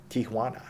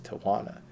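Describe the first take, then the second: First: Tijuana as "tee-HWAH-nah", with a breathy h before the wa; Spanish Tijuana. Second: Tijuana as "tee-uh-WAH-nuh", English vowels, no h sound; Tijuana said American way. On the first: Correcting himself on the cat's hometown, Spanish pronunciation. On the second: Telling a story about a rescued cat from Tijuana, English pronunciation. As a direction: say Tijuana the plain gringo way. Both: Shown as a demonstration.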